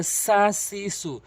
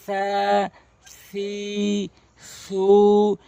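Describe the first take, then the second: First: "সা সি সু" with a plain hissed s, vowels short; quick sibilant s on "সা সি সু", no th; common mispronunciation. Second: "সা সি সু" with tongue tip at the teeth, vowels held long; lisped th start on each of "সা সি সু", drawn out slowly; correct long tha syllables. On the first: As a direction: say "সা সি সু" briskly with an s sound. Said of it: "অধিকাংশ লোক ভুল করে বলে থাকে". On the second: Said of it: "তাহলে পড়বেন এভাবে". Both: Shown as a demonstration.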